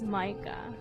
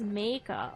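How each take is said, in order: First: The name is given its German pronunciation. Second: The name is given its Dutch pronunciation. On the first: "the latter would be read as Micah" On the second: "The former is pronounced as Meika"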